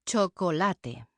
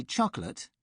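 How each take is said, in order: First: Chocolate in Spanish, four syllables cho-co-LA-te, final e sounded; slow Spanish chocolate, every syllable clear. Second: Chocolate in English, two syllables, CHOK-lət; clipped English chocolate, silent final e. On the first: Isabel showing learners, slow Spanish chocolate. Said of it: "but Isabel says". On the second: [name] contrasting with Isabel, plain English chocolate. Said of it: "I say chocolate". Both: Shown as a demonstration.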